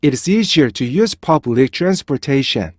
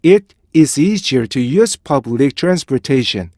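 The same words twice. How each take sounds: First: 'It is' run together without a break; fluent linked English model sentence; quick connected reading. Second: Deliberate model sentence, detach 'It' from 'is'; careful, measured English reading; slow separated reading. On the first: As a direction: read briskly, linking subject and verb. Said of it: "빨리 읽어보면요". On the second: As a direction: clear break after 'It', then 'is easier'. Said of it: "천천히 읽어보잖아요". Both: Shown as a demonstration.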